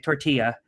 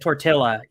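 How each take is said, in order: First: It is said with a light, anglicized Spanish accent. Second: It is said fully English, with no Spanish sounds. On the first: The speaker sounds normal. The speaker calls it right. "you're fine. It sounds gringo" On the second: The speaker sounds ignorant. The speaker calls it wrong. "without the accent"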